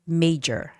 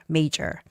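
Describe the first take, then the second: First: The middle consonant is a j sound. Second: The middle consonant is a j sound.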